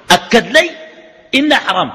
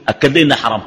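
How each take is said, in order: First: أكد لي إنها حرام repeated higher, with weight on إنها and حرام; emphatic repeat. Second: Said in the usual way. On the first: Shown as a demonstration. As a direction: hammer the verdict home the second time.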